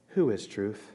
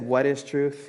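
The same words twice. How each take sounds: First: "Who" leaned on, quiet and low; stress on who. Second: "What" leaned on in "What is truth?"; stress on what. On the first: Pastor showing the question Pilate should have asked, stress on who. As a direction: hit "Who" as the right question. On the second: Pastor showing Pilate's wrong question, stress on what. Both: Shown as a demonstration. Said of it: "He should have said".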